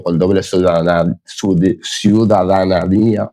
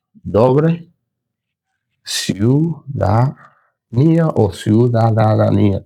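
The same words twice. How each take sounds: First: Stumbling over "ciudadanía", breaking off and restarting; tongue-tied. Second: "ciudadanía" slowly syllable by syllable, pitch rising; struggling to pronounce. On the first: Teacher explaining Pablo's double citizenship, tongue-tied on "ciudadanía". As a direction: trip on "ciudadanía", then drag it out slowly. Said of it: "se me trabó la lengua". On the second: Teacher retrying a hard word, struggling slowly through "ciudadanía". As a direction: labour through "ciudadanía", stretching each piece upward. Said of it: "No puedo decir esa palabra". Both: Real, not acted.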